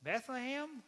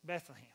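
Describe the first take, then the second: First: High, incredulous wife's echo; Mary. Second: Lightly voiced reluctant husband; Joseph. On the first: Acted. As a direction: repeat it in high-pitched disbelief. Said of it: "Mary says". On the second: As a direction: drop the place name sheepishly after a pause. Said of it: "Joseph's like".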